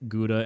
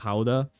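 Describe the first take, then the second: First: It is said with an American pronunciation. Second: It is said with a Dutch pronunciation. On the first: The speaker calls it wrong. "pronouncing it Gouda ... but I'm American" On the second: The speaker calls it right. "and not Gouda"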